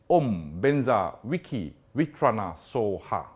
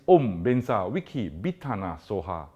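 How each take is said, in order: First: The fourth word starts with a W sound. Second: The fourth word starts with a B sound. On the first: This follows one teaching lineage. "Vitrana with a W" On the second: This follows another teaching lineage. "Bitana with a B"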